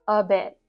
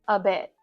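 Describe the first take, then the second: The two takes are said the same way.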